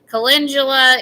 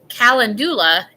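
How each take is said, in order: First: It is said in a standard pronunciation. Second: It is said in a Texan-style pronunciation. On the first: This is the accepted way. The speaker calls it right. "is like the proper way" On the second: This is the speaker's old habitual way. The speaker calls it wrong. "is how I used to say it"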